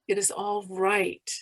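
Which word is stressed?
right. The stress falls on the word right. "emphasize each word separately"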